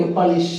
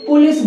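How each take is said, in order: First: पुलिस as puh-LEES, low and soft start; corrected pronunciation. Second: पुलिस with "pu", as PU-lis; wrong pronunciation. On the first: Teacher answering for students, corrected. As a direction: reduce the first vowel of पुलिस to "puh". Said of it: "इसको generally क्या बोलेंगे". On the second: Teacher quoting what we used to say, mispronounced. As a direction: round "u" in the start of पुलिस. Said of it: "गलत है". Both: Shown as a demonstration.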